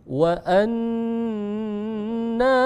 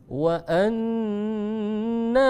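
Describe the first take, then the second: The two takes are said the same way.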